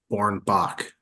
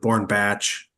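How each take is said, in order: First: The name ends with a hard 'k' sound. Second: The name ends with a 'ch' sound. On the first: The speaker calls it right. "Like to me, it's like Born Bach" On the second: The speaker calls it wrong. "But you get Born Batch"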